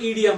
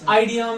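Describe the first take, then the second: First: The word begins with an 'ee' sound. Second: The word begins with an 'eye' sound. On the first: The speaker calls it right. "ये ईडियम है" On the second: The speaker calls it wrong. "ये आइडियम नहीं है"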